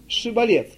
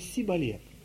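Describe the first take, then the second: First: The word begins with an sh sound. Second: The word begins with an s sound. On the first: This is the test word as it should be said. The speaker calls it right. "скажи" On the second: The speaker is revealed as one of the Ephraimites. The speaker calls it wrong. "«ше» не могли произнести, они говорили «сибалет»"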